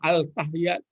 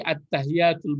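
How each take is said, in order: First: The article keeps a clear l sound. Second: The article blends into a doubled t sound. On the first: The speaker calls it wrong. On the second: The speaker calls it right.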